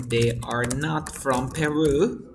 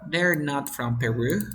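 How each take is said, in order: First: Slowly, word by word; slow and clear. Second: Said in the usual way. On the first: Shown as a demonstration. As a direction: spell it out slowly for the student. (despacio y claro, palabra por palabra)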